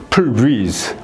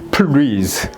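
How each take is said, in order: The two takes are said the same way.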